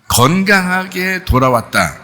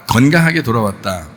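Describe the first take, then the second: First: 건강하게 돌아왔다, 높고 느리게 건강하게를 강조; stressed slow. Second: Said in the usual way. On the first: Shown as a demonstration. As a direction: linger on 건강하게, high and slow. (건강하게를 높고 천천히 강조) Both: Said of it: "여러분이 생각할 때는".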